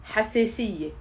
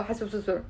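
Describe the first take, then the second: First: حساسية said cleanly as ha-se-siye; quick, tidy حساسية with e vowels; corrected pronunciation. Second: حساسية mangled into "hasososor", softly; garbled mispronunciation. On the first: Shown as a demonstration. Teacher correcting the garbled attempt, clean ha-se-siye. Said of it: "something like that. No, it's". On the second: Retold or imitated. Teacher imitating her learners' failed repeat, garbled. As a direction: botch حساسية as a jumble of "so-so-sor". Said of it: "and then you go".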